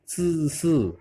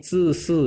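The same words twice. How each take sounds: First: ZI SI slow with tight hissed vowel; drawn-out, pressed ZI SI; pressed sound. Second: ZI SI with an uh-like vowel; first sound. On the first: Teacher repeating the difference, tight sound. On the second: Teacher repeating the contrast, open muted vowel. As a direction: looser vowel on ZI SI. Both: Shown as a demonstration. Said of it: "beda ya".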